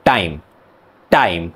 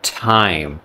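First: "Time" with a hard, unaspirated Indian T. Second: "Time" with a puff of air on T; aspirated T. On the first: Teacher showing how Indians say "Time", hard T. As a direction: say "Time" with no puff after the T. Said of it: "In Indian people, they say". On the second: Teacher contrasting sounds, "Time" with aspirated T. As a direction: say "Time" with a breathy English T. Contrast take before Indian version. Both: Shown as a demonstration.

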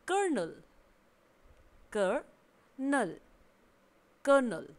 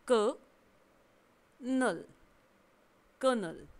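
First: कर्नल with a clear r, "kər-nəl", the middle take drawn out slowly; कर्नल repeated, rolling the r. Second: कर्नल split slowly into क and नल, then joined, r silent; कर्नल spelled out syllable by syllable with no r; no r sound. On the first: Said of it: "दूसरा pronunciation है उसमें आर उच्चारण के साथ है". (कर्नल, आर के साथ साफ़ उच्चारण) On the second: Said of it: "यहाँ पर आर का उच्चारण नहीं होगा". (कर्नल धीरे-धीरे, बिना आर के) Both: Shown as a demonstration.

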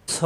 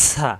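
First: "স" heavy, with rounded o-like vowel; heavy letter. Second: "সা" light, with open a vowel; thin letter. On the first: Teacher contrasts two similar letters, heavy rounded "স". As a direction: say "স" full-mouthed after the hiss. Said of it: "সদে স হবে". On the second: Teacher contrasts two similar letters, thin open "সা". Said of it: "সিনে সা হবে". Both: Shown as a demonstration.

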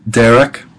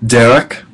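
The two takes are said the same way.

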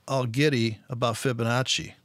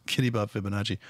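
First: Said in the usual way. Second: Low, quick mutter through a laugh; mocking laugh. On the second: Real, not acted. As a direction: laugh it off under your breath.

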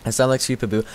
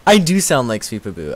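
First: Said in the usual way. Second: Emphatic "do", raised above the rest; agree, leaning on "do"; stress on DO. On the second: Real, not acted. Agrees with the comment.

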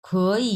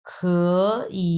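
First: "খই" joined, "খ" in second tone; second plus third tone on "খই", run together; tone change demo. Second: "খ" and "ই" split by a long pause; awkward demo of "খ, ই", both in third tone; laboured, disconnected "খ" then "ই"; odd separate third tones. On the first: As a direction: say "খই" as one smooth word with converted first tone. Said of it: "খটা হয়ে যাবে তখন". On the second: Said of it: "এটা কেমন একটা odd শোনাচ্ছে না". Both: Shown as a demonstration.

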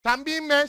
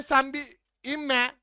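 First: Said in the usual way. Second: Slow, stretched pleading repeat; drawn-out plea. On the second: Real, not acted. Gamer pleading with a teammate not to go down, drawn out slowly. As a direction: drag each word out, begging.

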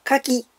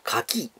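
First: 牡蠣 in the pitch pattern that jars; the odd-sounding intonation. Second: 牡蠣 pitched as the food; intonation for edible oyster. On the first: Streamer showing the version that bothers them, jarring intonation. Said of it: "気になるのは牡蠣". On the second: Streamer contrasting the food with firearms, oyster intonation. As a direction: demonstrate 牡蠣 meaning the oyster you eat. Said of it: "その辺でイントネーションね". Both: Shown as a demonstration.

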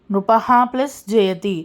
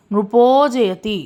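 First: Said in the usual way. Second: నృపో జయతి slowly, the ఓ held long; visarga becomes o. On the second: Shown as a demonstration. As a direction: draw out the o ending నృపో. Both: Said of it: "ప్రొనౌన్సియేషన్లో ఉకారం అనేది వస్తుంది".

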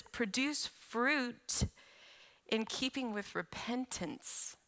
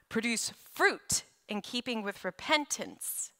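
First: Very slow, softer, every word weighed; preacher repeating the verse softly and deliberately; slow emphatic quote. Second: Said in the usual way. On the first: Shown as a demonstration. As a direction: let "Produce fruit" sink in slowly.

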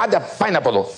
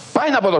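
First: Raised, scornful shooing away; mock royal dismissal. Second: Much higher, exasperated second brush-off; higher angry dismissal. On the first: Croesus shoos Solon away, raised scornful dismissal. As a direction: send him off like a pest, a touch higher. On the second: Retold or imitated. Croesus repeats the dismissal to Solon, pitch leaping up. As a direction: push him out, voice leaping up in annoyance.

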